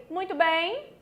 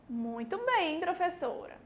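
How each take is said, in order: First: Rising, asking muito bem; "Muito bem?" with a questioning lift on "bem". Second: Said in the usual way. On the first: Shown as a demonstration. Teacher testing the class, asking "Muito bem?".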